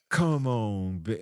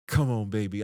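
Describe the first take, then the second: First: It is said slowly and drawn out. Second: It is said fast and rushed.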